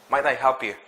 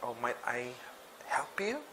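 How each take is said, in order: First: It is said in a confident way. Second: It is said in a hesitant way.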